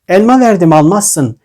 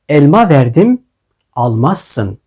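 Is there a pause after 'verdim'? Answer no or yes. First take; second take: no; yes. First: It is read without a marked pause after 'verdim'. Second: It is read with a clear pause after 'verdim'.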